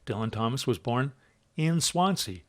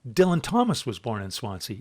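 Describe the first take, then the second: First: The stress is on Swansea. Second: The stress is on Dylan Thomas.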